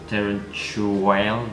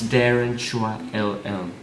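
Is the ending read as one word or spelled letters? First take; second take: one word; spelled letters. First: The ending is blended into one word. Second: The ending is said as separate letters. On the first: The speaker calls it wrong. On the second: The speaker calls it right.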